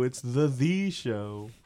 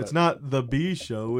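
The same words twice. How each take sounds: First: Drawn-out, heavy stress on "The Show"; Shane McMahon. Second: Said in the usual way. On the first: Retold or imitated. Podcaster quoting the show's opening line, "The Show" drawn out. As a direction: stretch "The Show" slowly like a catchphrase. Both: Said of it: "That's what Shane McMahon said opening the show".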